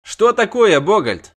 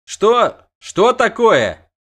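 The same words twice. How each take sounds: First: Loud high question; high startled cry. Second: High loud slowed cry; high loud startled question; startled shout. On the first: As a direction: press Bogold for news. Dandelion repeats question. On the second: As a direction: demand what he sees. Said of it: "крикнул Лютик". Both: A narrator's reading.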